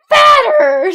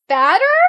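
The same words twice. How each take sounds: First: It is said loudly and aggressively. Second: It is said quietly, as a question.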